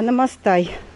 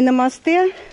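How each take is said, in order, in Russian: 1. Слово заканчивается гласным звуком 'eye'. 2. Слово заканчивается гласным звуком 'eh'. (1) "а намастай" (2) "Не намасте и в конце"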